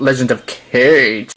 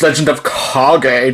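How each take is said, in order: First: Kage is said like the English word cage. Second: Kage is said as two syllables, kah-geh. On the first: The speaker calls it wrong. "not Legend of Cage" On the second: The speaker calls it right. "I'm sorry, it's Legend of Kage"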